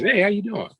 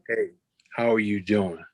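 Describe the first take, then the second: First: The greeting sounds quick and casual. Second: The greeting sounds warm and genuinely concerned. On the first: The asker is just making routine small talk. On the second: The asker truly cares how the person is. "there's a certain voice that we all tap into... they are really concerned"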